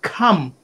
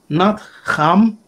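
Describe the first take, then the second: First: The name begins with a K sound. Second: The name begins with an H sound. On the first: The speaker calls it right. "we say Cam, see, with a K" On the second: The speaker calls it wrong.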